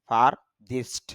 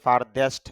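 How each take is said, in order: First: The last syllable has an 'i' vowel. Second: The last syllable has an 'e' vowel. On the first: The speaker calls it right. "তবে শুদ্ধ হবে ফারদিস্ট" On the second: The speaker calls it wrong. "যদিও ফারদেস্ট বলা হয়"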